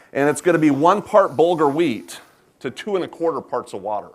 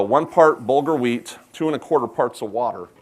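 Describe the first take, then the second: First: Said in the usual way. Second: One part bulgur wheat spelled out slowly, each part weighed; slow, stressed ratio. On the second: Shown as a demonstration. Cook slowly repeats the ratio for the audience to remember. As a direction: drill the ratio home slowly, word by word. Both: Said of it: "as long as you remember that ratio".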